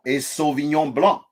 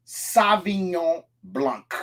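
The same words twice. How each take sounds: First: "Sauvignon Blanc" the French way, nasal ending, final c silent; correct French pronunciation. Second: "Sauvignon Blanc" with the final c sounded, slowly; "Sauvignon Blanc" pronounced wrong on purpose, with a hard k at the end; wrong pronunciation. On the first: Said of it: "C at the end of a French word is not said". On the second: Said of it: "That's not how we said". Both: Shown as a demonstration.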